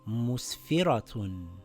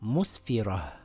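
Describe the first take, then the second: First: The word ends with a full 'tun' sound. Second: The word ends with a soft h sound. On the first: The reader continues past this word. "If I continue reading a sentence, this will read musfiratun" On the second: The reader stops at this word. "if I stop at the word ... I read it with a ha"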